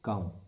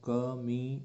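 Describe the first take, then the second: First: No vowel is sounded after the m. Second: An extra vowel is sounded after the m. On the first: The speaker calls it right. "हम इसे क्या पढ़ते हैं" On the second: The speaker calls it wrong. "इसको हम क मी इस तरह से नहीं पढ़ते हैं"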